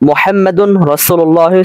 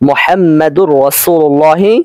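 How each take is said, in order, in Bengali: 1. n-টি r-এর আগে আলাদা থাকে। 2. n-টি দ্বিত্ব r-এর সাথে মিশে যায়।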